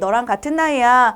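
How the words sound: The voice is pure and innocent. "이번엔 청순한 말투로"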